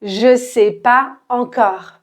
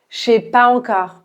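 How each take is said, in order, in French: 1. Je et sais se prononcent en deux syllabes séparées. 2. Je et sais se fondent en une seule syllabe, chez. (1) "quand on a parlé de manière normale, à la vitesse normale" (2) "de manière très naturelle, on enlève le E ... ça devient chez"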